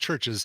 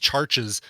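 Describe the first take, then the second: First: The first vowel sounds like the u in fur. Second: The first vowel sounds like the a in car. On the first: The speaker calls it right. "No, no, no, it's Churches" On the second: The speaker calls it wrong. "don't also then call Churches Charches"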